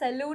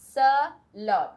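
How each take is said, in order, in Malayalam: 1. രണ്ടാമത്തെ അക്ഷരം 'loon' പോലെയാണ് തോന്നുന്നത്. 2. രണ്ടാമത്തെ അക്ഷരം 'lon' പോലെയാണ് തോന്നുന്നത്. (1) "സലൂണുമല്ല, സലൂൺ എന്ന് കുറെ തവണ നമ്മൾ കേട്ടിട്ടുണ്ടാവും" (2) "സലോൺ ഇങ്ങനെ വേണം പ്രൊനൗൺസ് ചെയ്യാനായിട്ട്"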